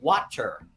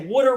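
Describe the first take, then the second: First: It has an open first vowel, standard style. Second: It has a rounded first vowel, like 'wooder'. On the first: "We don't say water" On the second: "I'm from Philadelphia. We say water"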